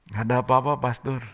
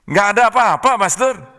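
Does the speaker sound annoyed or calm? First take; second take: calm; annoyed. First: It is said in a calm, plain tone. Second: It is said in an annoyed, irritated tone.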